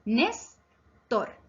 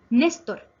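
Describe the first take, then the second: First: "Néstor" broken as Nés, pause, tor; teacher dividing "Néstor" into its syllables. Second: Said in the usual way. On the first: Shown as a demonstration. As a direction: split "Néstor" into two separate beats. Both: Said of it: "Se divide en dos sílabas".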